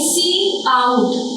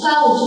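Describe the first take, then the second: First: It is said as two parts, 'see out'. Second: It is said as one syllable, 'kout'. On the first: The speaker calls it right. "इसको बोलेंगे सी आउट" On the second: The speaker calls it wrong. "काउट नहीं"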